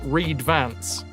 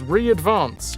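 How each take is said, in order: First: The word is split as read-vance. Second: The word is split as re-advance. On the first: The speaker calls it wrong. "not re-advance. I read that very wrong" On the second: The speaker calls it right. "It's re-advance"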